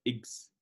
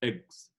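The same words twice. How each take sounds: First: Eggs with an 'ih' vowel, like iggs; mispronounced eggs. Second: Eggs with an open 'eh' vowel; correct eggs vowel. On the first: Teacher warning learners, eggs wrongly said as iggs. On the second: Teacher modelling for learners, eggs with an 'eh' vowel. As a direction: say eggs with a clear short E. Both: Shown as a demonstration. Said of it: "ليست eggs".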